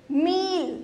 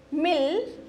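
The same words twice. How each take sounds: First: मील with a long drawn ee. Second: मिल with a short, quick i. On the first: Teacher to kids, long vowel मील. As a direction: stretch the ee in मील. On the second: Teacher to kids, short vowel मिल. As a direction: clip the i in मिल. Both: Shown as a demonstration. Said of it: "अंतर है ना बोलने में".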